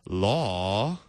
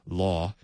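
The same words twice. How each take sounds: First: The word is stretched out in a radio-announcer voice. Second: The word is short and clipped, one syllable. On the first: "if you have a radio show you want to, you can say" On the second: "you could probably say it with just one syllable if you wanted to"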